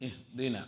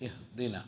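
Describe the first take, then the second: The two takes are said the same way.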